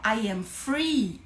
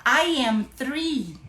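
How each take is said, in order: First: "free" with F, said slowly; F sound. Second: "three" with TH, slow and separated words; TH sound. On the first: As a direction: model "free" slowly, starting on F. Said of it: "Eu estou livre". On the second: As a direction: model "three" slowly, starting on TH. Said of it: "você tá falando que eu tenho três anos". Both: Shown as a demonstration.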